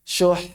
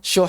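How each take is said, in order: First: The final consonant is held slightly longer. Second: The final consonant is clipped short. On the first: The speaker calls it right. "Panjangin dikit" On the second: The speaker calls it wrong. "Jangan syuh. Itu kayak sukun biasa"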